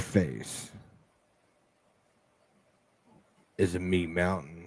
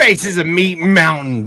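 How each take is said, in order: First: It is said in a put-on sexy voice. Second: It is said in an ordinary speaking voice.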